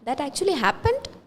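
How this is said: It is said in a questioning tone. The speaker is asking whether it really happened. "for a question mark, ... my tone, ... you can understand it is a question mark"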